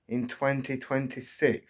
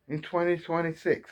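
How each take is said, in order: First: Said in the usual way. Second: Twenty twenty-six lifted high, each word stressed in disbelief; emphatic repeat. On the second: Real, not acted. Fan repeating the year, pitched up in disbelief. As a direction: hammer the year home, pitched up.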